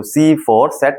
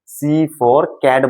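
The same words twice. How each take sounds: First: सैट begun with an "s" sound in place of "k"; wrong soft C. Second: Cat begun with a "k" sound, drawn out slowly; slow, clear "kat" for cat; correct hard C. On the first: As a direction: misread cat as सैट. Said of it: "नहीं बोलते हो". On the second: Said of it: "C for cat बोलते हो". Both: Shown as a demonstration.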